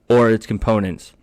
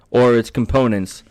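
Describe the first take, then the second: No difference in how they are said.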